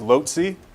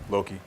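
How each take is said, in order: First: It uses a non-classical, regional pronunciation. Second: It uses the classical Latin pronunciation. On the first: Some regions say it this way. "I've heard that pronounced lotzi" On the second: Everyone would then say the same thing. "Just go with the classical loci"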